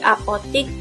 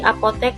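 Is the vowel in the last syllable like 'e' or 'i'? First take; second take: i; e. First: The last syllable has an 'i' vowel. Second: The last syllable has an 'e' vowel. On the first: This is the non-standard form. The speaker calls it wrong. "yang tidak baku menggunakan huruf I" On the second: This is the standard form. The speaker calls it right. "bahasa baku apoteknya menggunakan huruf E"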